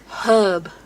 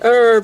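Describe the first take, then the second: First: The word starts with a clear H sound. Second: The word starts with no H sound. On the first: The speaker calls it right. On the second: The speaker calls it wrong.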